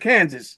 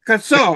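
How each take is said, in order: First: The word ends in 'sas' with pronounced final s. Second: The word ends in 'saw' with silent final s. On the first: The speaker calls it wrong. "instead of Kansas" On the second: The speaker calls it right. "They should be called Kassaw"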